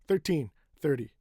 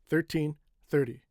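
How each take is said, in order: No difference in how they are said.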